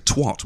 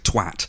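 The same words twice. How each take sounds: First: The word has an American pronunciation. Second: The word has a British pronunciation.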